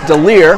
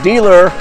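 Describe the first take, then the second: First: The name sounds like 'de-leer'. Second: The name sounds like the word 'dealer'. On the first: The speaker calls it right. "you told me it's DeLear" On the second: The speaker calls it wrong. "I've been saying dealer all week"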